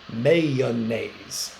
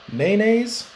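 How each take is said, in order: First: "mayonnaise" drawn out in three syllables, MAY-uh-naze; three-syllable pronunciation. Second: "mayonnaise" squeezed into two syllables, MAN-aze; two-syllable pronunciation. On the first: Teacher offering class the other option, "mayonnaise" in three slow syllables. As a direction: say "mayonnaise" slowly, sounding the middle "uh". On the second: Teacher polling class on the sandwich spread, "mayonnaise" in two syllables. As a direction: say "mayonnaise" as MAY-naze, dropping the middle syllable.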